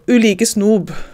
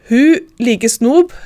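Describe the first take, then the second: First: The first word starts without an h sound. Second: The first word starts with an h sound. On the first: "om det er u eller hu"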